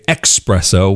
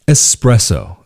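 First: The word begins with an 'ex' sound. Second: The word begins with an 'ess' sound. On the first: It mixes in the English word express. The speaker calls it wrong. "as some Americans mistakenly say" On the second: This is how it is said in Italy. The speaker calls it right. "in Italy"

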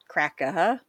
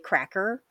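First: The word ends in a vowel without r. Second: The word ends with a clear r sound. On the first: It is the slangy way used as a racial term. "They would say cracka. Well, you know, little slangy" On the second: It is the speaker's ordinary, non-slang way of saying it. "because I say cracker"

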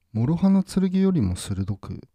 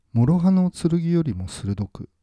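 The two takes are said the same way.

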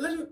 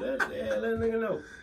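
First: The phrase is said very fast and run together. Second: The phrase is said at a normal pace.

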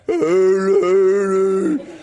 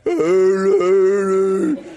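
First: It is said in a deep, hoarse voice. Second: The same.

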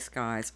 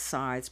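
First: The word begins with an sk sound. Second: The word begins with a plain s sound. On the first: The speaker calls it wrong. "for some reason I always say skies" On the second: The speaker calls it right. "I know it's sides"

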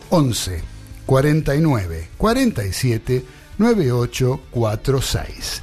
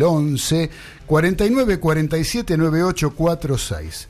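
First: The number is said slowly. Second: The number is said fast.

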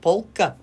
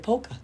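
First: The L sound in the word is pronounced. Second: The L sound in the word is silent. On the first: The speaker calls it right. "you said the L when you said that" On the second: The speaker calls it wrong. "But I always say polka"

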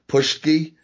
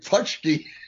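First: The middle consonant sounds like 'sh'. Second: The middle consonant sounds like 'ts'. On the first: The speaker calls it wrong. "He can't pronounce it. He says Pushki" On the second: The speaker calls it right. "makes sure to say Putski and emphasize it"

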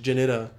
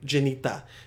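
First: The name is said with an American pronunciation. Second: The name is said with a Bosnian pronunciation. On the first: "say it like her American name" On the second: "The way I say it, that's Bosnian as shit"

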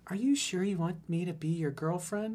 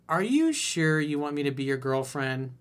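First: It is said in a put-on girl voice. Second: It is said in his normal voice.

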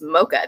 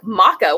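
First: It is said the usual American way. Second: It is said the British way, as on the show. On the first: "it's mocha" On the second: "They just don't say it the same way over here"

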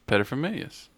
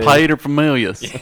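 First: The word is said quickly. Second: The word is said slowly. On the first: The speaker calls it wrong. "just say it fast" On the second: The speaker calls it right. "slow it down and we'll be okay"

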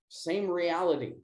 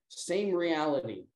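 Both takes have the same delivery.

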